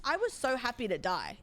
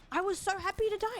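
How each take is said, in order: First: Said in the usual way. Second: Much higher and fast, eager; excited repeat. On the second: Real, not acted. Streamer gushing to chat about dying, higher, fast. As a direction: gush it out like a relief.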